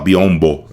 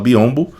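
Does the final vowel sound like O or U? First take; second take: O; U. First: The final vowel sounds like O. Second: The final vowel sounds like U. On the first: The speaker calls it wrong. "A gente não fala biombo" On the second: The speaker calls it right. "A gente fala biombo"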